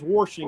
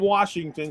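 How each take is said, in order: First: An R sound is added in the first syllable. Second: It is said without an R sound. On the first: The speaker calls it wrong. "there's no R in Washington" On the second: The speaker calls it right. "She don't say Washington"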